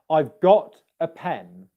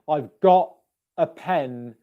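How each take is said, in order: First: The T in got is fully pronounced. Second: The T in got is a glottal stop. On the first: It sounds formal and professional. The speaker calls it right. "instead of saying got" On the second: It sounds very informal. The speaker calls it wrong. "If I say I've got a pen instead, that doesn't sound professional English"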